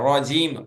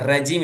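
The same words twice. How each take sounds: First: The first syllable sounds like 'raw' in rocket. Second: The first syllable sounds like 'ra' in rabbit. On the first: The speaker calls it right. "ராக்கெட் அப்படின்னு சொல்ற மாதிரி சொல்லணும்" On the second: The speaker calls it wrong. "ராபிட் அப்படின்னு சொல்ற மாதிரி சொல்லக்கூடாது"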